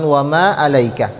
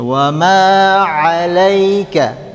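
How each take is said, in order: First: "'alaika" with a plain glottal "a", lower; hamzah for ain. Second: "'alaika" slow, opening on a squeezed throat ain; mid-throat ain. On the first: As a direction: begin "'alaika" without squeezing the throat, like hamzah. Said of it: "Jadi bukan". ("'alaika" dengan hamzah, bukan ain) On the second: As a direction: draw out "'alaika" from the middle of the throat. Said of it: "tengah tenggo". ("'alaika" dengan ain, dilantunkan perlahan) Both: Shown as a demonstration.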